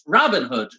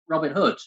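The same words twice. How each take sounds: First: The stress is on the first word. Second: The stress is on the second word. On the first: "calm down with my first name"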